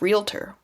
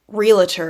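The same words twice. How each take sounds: First: No vowel is added, giving two syllables. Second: An extra vowel is added, giving three syllables. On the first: The speaker calls it right. "instead of realtor" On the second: The speaker calls it wrong. "add sounds to words"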